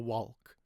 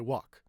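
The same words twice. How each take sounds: First: The L sound is pronounced in the word. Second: The L sound is left out of the word. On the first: The speaker calls it wrong. "We don't say talk or chalk or walk" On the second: The speaker calls it right. "We say walk"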